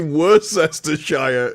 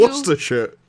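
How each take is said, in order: First: It is said the long American way. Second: It is said the short British way. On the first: The speaker calls it wrong. "it has to be Worcestershire as a pronunciation" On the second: The speaker calls it right. "because it's Worcestershire"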